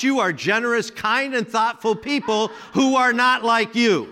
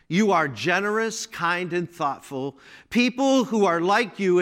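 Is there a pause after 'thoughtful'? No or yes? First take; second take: no; yes. First: There is no pause after thoughtful. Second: There is a pause after thoughtful.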